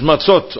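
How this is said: The word ends in an 'ot' sound. This is the academic Hebrew pronunciation. "in het Hebreeuws is matzot"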